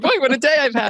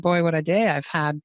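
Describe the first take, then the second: First: It is said with lively expression. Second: It is said flat, without expression.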